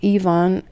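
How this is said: The name is pronounced the European way. "I would in Europe pronounce it Ivan"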